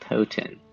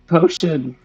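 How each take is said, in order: First: The middle consonant is a plain t sound. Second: The middle consonant is a sh sound. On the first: The speaker calls it wrong. "I pronounced it potent" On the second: The speaker calls it right. "it was potion"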